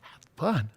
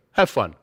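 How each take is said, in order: First: Soft, stunned disbelief; quietly baffled repeat; incredulous echo. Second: Put-on low, Austrian-accented coach sign-off; brisk order in an Austrian accent; Arnold Schwarzenegger. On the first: Acted. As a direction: echo the order back, dumbfounded. Runner reacts to coach's order. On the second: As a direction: Austrian coach signing off by radio. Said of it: "sounds like Arnold Schwarzenegger".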